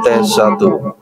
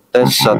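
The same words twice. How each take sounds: First: The voice is processed high and squeaky. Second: The voice is processed growling and monstrous. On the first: "Jadi suara Cikmang" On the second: "ini suara monster"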